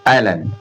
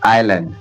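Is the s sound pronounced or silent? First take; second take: silent; silent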